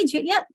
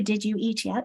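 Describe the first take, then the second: First: The words are reduced and run together. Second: Each word is said fully and separately.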